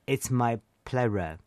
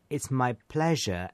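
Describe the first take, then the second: First: The middle consonant is an r sound. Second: The middle consonant is a buzzing zh sound. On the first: The speaker calls it wrong. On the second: The speaker calls it right.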